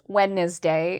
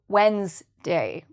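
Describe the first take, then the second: First: The word is said with three syllables. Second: The word is said with two syllables. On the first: The speaker calls it wrong. "three syllables" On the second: The speaker calls it right. "instead of two"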